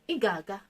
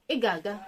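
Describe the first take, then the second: No difference in how they are said.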